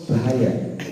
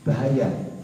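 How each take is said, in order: No difference in how they are said.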